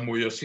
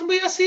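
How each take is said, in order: First: The voice is pitched very low. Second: The voice is pitched very high. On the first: "es una frecuencia más baja" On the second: "es una frecuencia muy alta"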